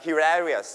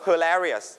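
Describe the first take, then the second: First: Hilarious with a clear hee first syllable; teacher contrasts the British hilarious with the American one. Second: Hilarious. with the first syllable as a weak huh; teacher models the American way to say Hilarious. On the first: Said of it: "British จะเป็น he". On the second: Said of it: "เป็นเสียงชวา คือเสียงคำว่า huh". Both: Shown as a demonstration.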